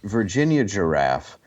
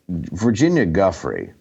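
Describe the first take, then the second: First: The surname is said like the word giraffe. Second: The surname is said like guffrey.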